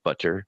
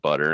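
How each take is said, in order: First: The middle t sound is fully pronounced. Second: The middle t sound is cut off. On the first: "instead of" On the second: "you just kind of cut it off"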